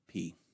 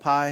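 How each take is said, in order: First: The name ends with an 'ee' vowel sound. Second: The name ends with an 'eye' vowel sound. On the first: This follows the Greek sound of the vowel. "because I's make an E sound in Greek, we call it P" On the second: This is the familiar English way of naming the letter. "You'll probably call it pi, and that's fine"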